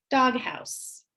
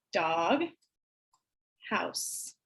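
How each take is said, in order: First: Said in the usual way. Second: "dog" and "house" as separate syllables with a long pause, fading. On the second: Shown as a demonstration. Teacher segmenting syllables for kids. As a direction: split the word into its two parts. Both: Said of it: "drag them down using our squares".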